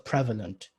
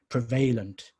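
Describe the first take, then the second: First: The stress is on the first syllable. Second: The stress falls on a later syllable. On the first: The speaker calls it right. "You stress on prev and not an alent" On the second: The speaker calls it wrong. "You wouldn't say, for example, instead of prevalent"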